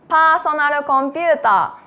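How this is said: It is said with Japanese katakana pronunciation.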